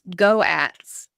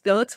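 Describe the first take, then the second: First: The word is split into two syllables. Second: The word is said as one syllable. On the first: "We pronounce them as, as two words" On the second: "we do not pronounce them as goats"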